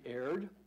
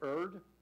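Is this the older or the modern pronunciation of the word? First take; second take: modern; older. First: The word has its modern, popular pronunciation. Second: The word has its older, historic pronunciation. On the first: This is the form family members prefer. "They said it should be erred" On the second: This is the historic form, no longer popular. "when I say erred"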